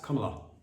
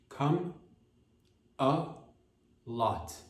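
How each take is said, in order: First: The three parts are run together quickly. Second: The three parts are said slowly and separately. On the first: "Say it all together fast" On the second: "break it apart if it's hard for you to pronounce"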